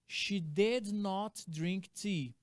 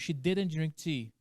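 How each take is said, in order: First: 'Did not' is said as two full words. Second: 'Did not' is contracted, said faster and linked. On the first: "se eu falar" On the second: "se eu usar a contração ... Muito mais rápido, muito mais fluido"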